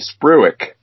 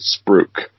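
First: The word is read as its spelling suggests. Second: The word is said the Australian way. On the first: The speaker calls it wrong. "It looks like it would be spruik" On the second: The speaker calls it right. "they pronounce it spruik"

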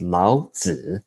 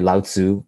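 First: The name is said in Mandarin Chinese. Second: The name is said in an anglicized way. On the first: The speaker calls it right. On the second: The speaker calls it wrong.

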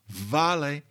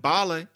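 First: The word begins with a V sound. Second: The word begins with a B sound. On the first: This is the late Latin pronunciation. "That's how you got a V in late Latin" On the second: This is a later stage of Latin. "people were pronouncing it b"

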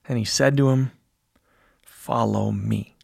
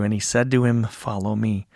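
First: The words stop briefly before 'follow me'. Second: The words run straight into 'follow me'. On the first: The speaker calls it right. "I think we want to pause there. We want that space to set off the invitation" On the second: The speaker calls it wrong. "I didn't pause between he said to him and "follow me," right? We just read it straight through"

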